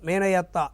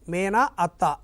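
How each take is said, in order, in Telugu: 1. 'y' glide రెండు అచ్చులను కలుపుతుంది. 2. రెండు అచ్చులు గ్లైడ్ లేకుండా కలుస్తాయి. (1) "అందులో కూడా యా వచ్చి చేరింది" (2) "మేన అత్త అని చదువం"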